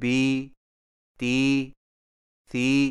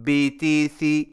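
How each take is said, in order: First: The vowels are stretched out long. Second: The vowels are short and clipped. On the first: The speaker calls it wrong. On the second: The speaker calls it right.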